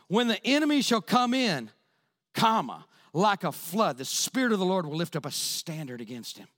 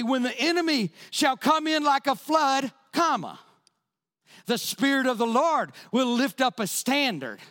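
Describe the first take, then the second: First: The break comes after the words come in. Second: The break comes after the words like a flood.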